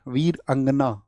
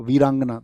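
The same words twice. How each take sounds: First: वीर अंगना said slowly as two separate words, वीर then अंगना; word split in two. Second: Said in the usual way. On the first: Shown as a demonstration. Teacher showing students how the word is built, वीर अंगना slowly split in two. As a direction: break वीर अंगना apart after वीर, unhurried. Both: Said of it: "दोनों से मिलके बनता है".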